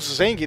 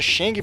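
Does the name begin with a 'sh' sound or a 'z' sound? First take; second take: z; sh. First: The name begins with a 'z' sound. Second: The name begins with a 'sh' sound. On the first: The speaker calls it right. "A pronúncia certa é Zeng" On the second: The speaker calls it wrong. "até o nome dele se escreve Sheng, aí eu acabo me confundindo"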